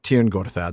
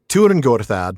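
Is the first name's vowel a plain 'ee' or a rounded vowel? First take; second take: plain 'ee'; rounded. First: The first word has a plain 'ee' vowel. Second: The first word has a rounded vowel sound. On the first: The speaker calls it wrong. "not Tirn Gorthad" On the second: The speaker calls it right. "So Turin Gorthad"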